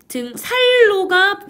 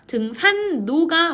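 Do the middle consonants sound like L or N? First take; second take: L; N. First: The middle consonants sound like a double l. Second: The middle consonants sound like a double n. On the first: The speaker calls it wrong. "표준 발음이 아니라" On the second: The speaker calls it right. "표준 발음이에요"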